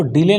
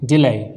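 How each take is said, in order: First: "डिले" ending in a plain "-ay"; rejected pronunciation. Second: "डिलाई" ending in a falling "-aai" glide; taught pronunciation. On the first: Teacher warns students off this reading, "डिले" with an "-ay" ending. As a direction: say "डिले" with last syllable rhyming with "day". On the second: Teacher corrects the reading for students, "डिलाई" with an "-aai" ending. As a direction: model "डिलाई", last syllable rhyming with "eye". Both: Shown as a demonstration. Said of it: "इसको डिले नहीं पढ़ते".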